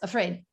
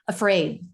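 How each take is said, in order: First: The stressed vowel is short and clipped. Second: The stressed vowel is long and full. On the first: The speaker calls it wrong. "it's not quite long enough to get the real sense of the stress" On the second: The speaker calls it right. "Stress syllables always give us the full clear vowel"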